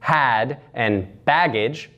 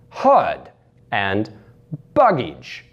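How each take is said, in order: First: The words are said in a standard accent. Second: The words are said in a Russian accent.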